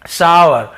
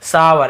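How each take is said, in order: First: सावर said slowly and clearly as "saa-var", louder; teacher sounding out सावर, saa-var; careful pronunciation demo. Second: सावर said calmly as "saa-var", a settled model; teacher restating सावर as "saa-var"; actual pronunciation. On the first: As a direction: pronounce सावर as "saa-var", not "shor". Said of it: "सावर ऐसे पढ़ते हैं". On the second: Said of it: "actual pronunciation". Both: Shown as a demonstration.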